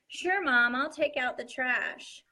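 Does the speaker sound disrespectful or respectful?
respectful. The tone is polite and respectful. The child is willing to help. The speaker calls it right. "a respectful face"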